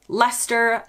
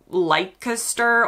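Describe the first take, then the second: First: It is said the local British way. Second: It is said the way Americans say it. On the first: The speaker calls it right. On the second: The speaker calls it wrong.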